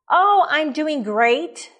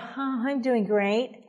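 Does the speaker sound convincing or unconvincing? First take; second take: convincing; unconvincing. First: It sounds sincere and convincing. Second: It sounds insincere and unconvincing.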